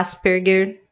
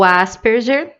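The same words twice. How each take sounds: First: The name is said with German-style pronunciation. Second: The name is said with Portuguese-style pronunciation.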